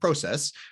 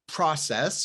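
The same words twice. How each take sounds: First: It is said with a British accent. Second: It is said with an American accent.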